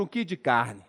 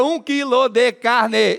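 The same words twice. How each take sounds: First: "um quilo de carne" squeezed to "um ki di carn" in Mineiro; Mineiro contraction. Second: "um quilo de carne" with every syllable sounded; full pronunciation. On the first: Comedian showing Minas speech, "um quilo de carne" contracted Mineiro-style. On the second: Comedian showing how other Brazilians say it, "um quilo de carne" fully sounded. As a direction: say "um quilo de carne" slowly, each final "e" a full "eh". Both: Shown as a demonstration. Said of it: "Diminuir a quantidade de sílabas".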